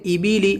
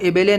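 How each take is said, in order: First: The vowels sound like 'ee', high and close. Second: The vowels sound like 'ay', mid and open. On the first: The speaker calls it right. "आवाज़ बिल्कुल नीचे जानी चाहिए" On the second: The speaker calls it wrong. "इसको एबेले नहीं बोलेंगे"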